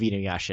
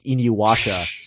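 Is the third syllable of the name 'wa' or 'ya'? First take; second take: ya; wa. First: The third syllable is pronounced 'ya'. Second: The third syllable is pronounced 'wa'. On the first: The speaker calls it right. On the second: The speaker calls it wrong.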